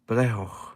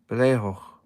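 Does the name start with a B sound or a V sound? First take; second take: B sound; B sound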